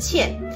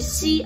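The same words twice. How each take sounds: First: The syllable is pronounced qian. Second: The syllable is pronounced xi. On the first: This is the usual everyday reading. "而不是茜" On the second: This is the reading used for foreign women's names. "里面念的都是茜"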